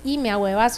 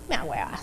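First: Said in the usual way. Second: "Me ahuevas" said low, soft and deflated. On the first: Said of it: "usted no nada más dice". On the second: Shown as a demonstration. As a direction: let "Me ahuevas" sink, mood fallen. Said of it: "totalmente está caído el ánimo".

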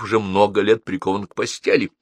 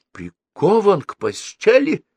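First: Said in the usual way. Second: High, drawn-out incredulous question; dismayed cry with rising end; shocked exclamation. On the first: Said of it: "ответила Мария Спиридоновна". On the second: A narrator's reading. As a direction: echo it in alarm, pitch leaping up. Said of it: "воскликнул Старжин Фиц".

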